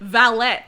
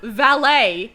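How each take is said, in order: First: The word is said an anglicized way. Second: The word is said the French way. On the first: This is how the character said it. The speaker calls it wrong. "he said valet" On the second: This is the expected pronunciation. The speaker calls it right. "Instead of valet"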